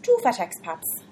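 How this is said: It is said in an Irish accent. "your best Irish two fat expats?"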